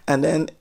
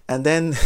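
Both takes have the same delivery.

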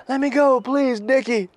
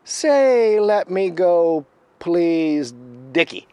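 First: Very high, loud imitated begging; high-pitched mock plea; pleading captive. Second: Loud, high, slowly drawn-out order; imitated taunting command, loud and measured; Critter. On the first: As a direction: repeat it obediently in a high put-on voice. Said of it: "And the guy goes". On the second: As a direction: dictate it forcefully, stretching the words. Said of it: "the other voice says".

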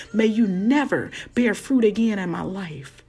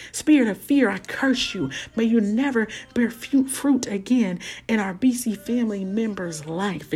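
First: Commanding curse, word by word; laying a curse. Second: Laying a curse. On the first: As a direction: pronounce doom on it. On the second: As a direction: cast the spirit out boldly. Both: Pretend. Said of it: "things that we need to curse".

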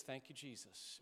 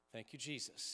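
First: Softer, whispered-quiet thanks; soft prayer. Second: Soft, breathed thanks; soft prayer. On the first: A pastor demonstrating a calm breath prayer to church, softly. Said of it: "somebody says". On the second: A pastor modelling breath prayer for the congregation, hushed. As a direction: murmur it gently with the breath. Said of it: "And then we breathe out". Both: Shown as a demonstration.

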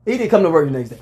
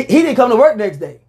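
First: Said in the usual way. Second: He didn't come to work next day, punched higher and louder; emphatic. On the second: Real, not acted. Host insisting Shannon skipped work, raised and emphatic. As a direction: stress the whole line with a raised voice.

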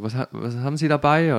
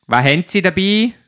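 First: Said in the usual way. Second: Loud, high Swiss-dialect question; Swiss officer's demand. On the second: Retold or imitated. Swiss customs officer questioning the driver, loud dialect demand.

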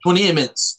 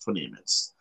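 First: Said in the usual way. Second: Quiet repeat. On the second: Real, not acted. Repeats the countdown lower.

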